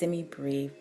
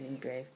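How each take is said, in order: First: The last syllable does not sound like 'brave'. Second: The last syllable sounds like 'brave'. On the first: The speaker calls it right. "I believe that's the accepted pronunciation" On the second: The speaker calls it wrong. "I have been saying semibrave"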